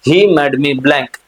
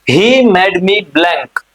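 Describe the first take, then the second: First: Repeated more briskly; quicker repeat. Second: Slow, deliberate reading of the blank; slow question read. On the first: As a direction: run through it once more, faster. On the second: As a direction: read the exercise aloud word by word. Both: Shown as a demonstration.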